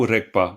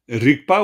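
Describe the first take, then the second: First: The word is said with an 'e' and a 'k'. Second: The word is said with an 'i' and a 'g'. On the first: The speaker calls it right. "c'est beaucoup mieux" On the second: The speaker calls it wrong. "Rigpa ou Rekpa? Attention"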